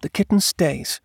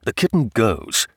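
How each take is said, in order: First: High-pitched, firm wife's voice; wife insisting. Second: Husband's firm counter in the natural register; husband insisting. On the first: Wife defies husband over the kitten, firm. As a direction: declare it firmly in a high voice. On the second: Husband overrules wife on the kitten, firm. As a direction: counter firmly, without raising the pitch. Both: Acted.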